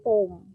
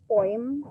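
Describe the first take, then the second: First: Poem as one syllable with a long o, POHM; poem said as "pome", no oy glide; corrected "pome" pronunciation. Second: Poem as one syllable with an "oy" glide, POYM; old "poym" pronunciation. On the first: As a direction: say poem to rhyme with home. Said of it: "but it's poem". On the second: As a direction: say poem to rhyme with coin, ending in m. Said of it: "Before they pronounce it as poem". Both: Shown as a demonstration.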